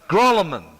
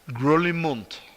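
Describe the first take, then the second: First: The name ends with a plain 'man' sound. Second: The name ends with a 'munt' sound. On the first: This is the everyday local way of saying it. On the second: This is the original Swiss way of saying it.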